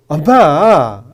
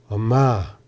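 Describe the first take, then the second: First: It sounds irritated and sharp. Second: It sounds irritated but tender and pitying. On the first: The speaker is irritated with the mother. "이러면은 엄마한테 짜증을 내는 거잖아요" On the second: The speaker feels pity along with irritation. "짜증도 짜증이지만 연민이 담긴 목소리입니다"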